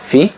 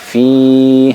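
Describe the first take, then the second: First: The vowel is short. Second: The vowel is held long. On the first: The speaker calls it wrong. "bukan fi" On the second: The speaker calls it right. "Dibaca panjang"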